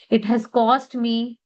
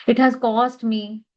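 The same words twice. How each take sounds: The two takes are said the same way.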